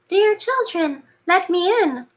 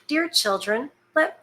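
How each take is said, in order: First: It is said in a put-on wolf voice. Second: It is said in the reader's normal voice.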